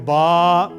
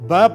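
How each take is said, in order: First: The vowel is drawn out long. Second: The vowel is short and clipped. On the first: "अलिफ लगने की वजह से आप उसको खींचेंगे" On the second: "पहले ब पढ़ते थे"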